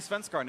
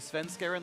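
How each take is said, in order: First: The name has a native-style, foreign-sounding pronunciation. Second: The name has a plain, anglicized everyday pronunciation. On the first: This is the pretentious high-road form. "there's high road pronunciation, and I'm not going to say Svenskaren anymore" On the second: This is the form everyone else uses. "like everyone else"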